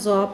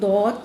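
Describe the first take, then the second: First: The letter name begins with a z sound. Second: The letter name begins with a d sound. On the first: The speaker calls it wrong. "या ज़ौ पढ़ें" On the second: The speaker calls it right. "हम दौद पढ़ें"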